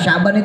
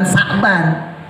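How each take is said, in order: First: The word begins with an sh sound. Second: The word begins with a plain s sound. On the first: The speaker calls it right. "syaban itu pakai shin" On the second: The speaker calls it wrong. "bukan bukan sakban"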